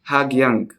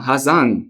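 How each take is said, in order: First: The name is said with a hard G sound. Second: The name is said with no G sound. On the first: The name is read straight from its spelling. The speaker calls it wrong. "I'm just pronouncing it the same way I read it" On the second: This is how local people say the name. The speaker calls it right. "How is this is pronounced Hazan?"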